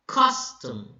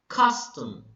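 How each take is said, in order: Both takes have the same delivery.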